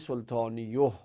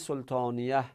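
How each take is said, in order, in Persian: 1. مصوت بعد از صدای y، u است. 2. مصوت بعد از صدای y، i است. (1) "نگفتیم سلطانیوه؟ به خاطر اینکه اونا سنگین بودن" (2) "پس چرا نگفتیم سلطانیه"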